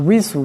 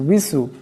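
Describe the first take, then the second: First: It starts with rounded lips and a w. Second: It starts with rounded lips and a w.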